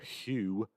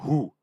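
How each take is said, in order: First: It is said in an exaggerated posh English accent. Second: It is said in a short, loud, barked way. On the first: It refers to the English band. "with an overly poncy English pronunciation" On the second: It refers to the Mongolian band. "I bark the Who"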